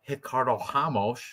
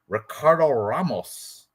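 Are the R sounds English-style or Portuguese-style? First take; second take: Portuguese-style; English-style. First: The R sounds are Portuguese-style Rs. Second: The R sounds are English-style Rs. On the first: "pronounce them in Portuguese" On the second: "if you want to say the R's"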